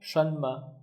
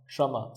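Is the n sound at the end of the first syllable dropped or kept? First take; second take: kept; dropped. First: The n at the first syllable's end is sounded. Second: The n at the first syllable's end is dropped. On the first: "together it becomes shanma" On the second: "in conversation they say shama"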